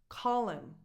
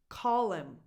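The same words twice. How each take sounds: No difference in how they are said.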